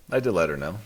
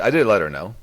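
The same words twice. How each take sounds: First: Said in the usual way. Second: I DID let her know, firmly; insistent. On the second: Real, not acted. Defending himself to a friend, emphatic. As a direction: stress on did, said louder and higher.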